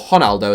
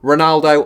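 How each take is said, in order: First: The name is pronounced in a Brazilian way. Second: The name is pronounced in an English way.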